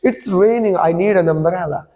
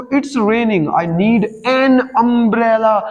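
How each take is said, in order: First: Slow reading, "an" said as "un"; weak "un" article. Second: Very slow, "an" stretched as "en"; drawn-out "en" article. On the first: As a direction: run "an umbrella" together as "un-umbrella". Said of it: "अन पढ़ना है". ("an" को "अन" पढ़ें, जोड़कर) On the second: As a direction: stretch "an umbrella" into "ennn umbrella". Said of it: "हम उसको खींचते हैं". ("an" को "एन" खींचकर पढ़ें) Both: Shown as a demonstration.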